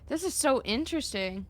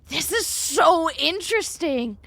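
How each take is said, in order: First: It sounds flat and uninterested. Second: It sounds lively and truly interested.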